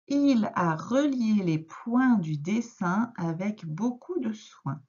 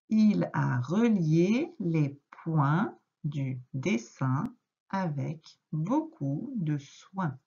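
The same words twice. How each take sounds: First: The sentence is read quite fast. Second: The sentence is read more slowly. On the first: The speaker calls it wrong. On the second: The speaker calls it right.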